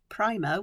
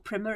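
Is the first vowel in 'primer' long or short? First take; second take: long; short. First: The first vowel is long, as in 'prime'. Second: The first vowel is short, as in 'prim'. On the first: "Primer would be P R I one M E R" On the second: "it would be P R I M M E R"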